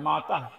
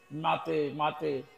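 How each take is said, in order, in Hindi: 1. यह शब्द लंबे 'aa' स्वर पर खत्म होता है। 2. यह शब्द 'e' स्वर पर खत्म होता है। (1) "संबोधन में माता होता है" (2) "जो टीवी वाले बोलते हैं ना"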